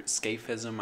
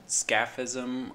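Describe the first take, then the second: First: "scaphism" as SKAYF-ism, a as in cape; long-a pronunciation. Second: "scaphism" as SKAF-ism, a as in cat; short-a pronunciation. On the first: Host offering another guess, "scaphism" said SKAYF-ism. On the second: Host unsure of the torture's name, "scaphism" said SKAF-ism. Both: Shown as a demonstration. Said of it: "I don't know how it's pronounced".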